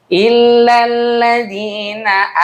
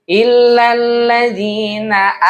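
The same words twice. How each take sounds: Both takes have the same delivery.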